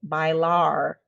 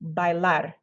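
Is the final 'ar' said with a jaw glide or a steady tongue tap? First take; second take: jaw glide; steady tap. First: The jaw moves during the vowel and final R. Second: The jaw stays still; the tongue taps once. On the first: The speaker calls it wrong. "instead of bailar ... That's not how you say it in Spanish" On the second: The speaker calls it right. "just flick your tongue once"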